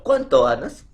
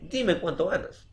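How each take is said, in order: First: "Cuánto ganas" asked loudly, rising at the end; direct question. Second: "Dime cuánto ganas" as a request, no questioning rise; indirect question. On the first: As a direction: lift GANAS into an open question. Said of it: "entre signo de interrogación". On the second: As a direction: state it with weight on DIME, higher pitched. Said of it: "Indirecta, ¿cómo puedo decir?". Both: Shown as a demonstration.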